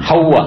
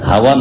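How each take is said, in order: First: The w sound is doubled and held longer. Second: The w sound is short and single. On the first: The speaker calls it right. "ওয়ায়ে তাসদীদ দিয়ে" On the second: The speaker calls it wrong. "হাওয়া না"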